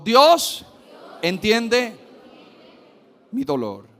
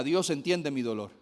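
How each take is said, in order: First: Shouted declaration of faith; louder. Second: Said in the usual way. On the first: Shown as a demonstration. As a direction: proclaim it loudly to the congregation. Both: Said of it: "Dígalo más fuerte".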